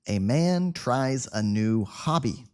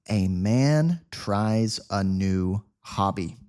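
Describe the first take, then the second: First: The sentence is spoken at a faster pace. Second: The sentence is spoken at a slow pace. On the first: "a little faster now" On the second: "I will speak slowly at first"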